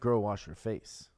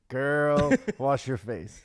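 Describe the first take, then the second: First: The word girl gets no special emphasis. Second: The word girl is emphasized and set apart. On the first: The speaker calls it wrong. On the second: The speaker calls it right.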